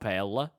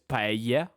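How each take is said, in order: First: The double L is sounded like an L. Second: The double L is sounded like a Y. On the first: The speaker calls it wrong. "this is not L" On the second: The speaker calls it right. "it's Y"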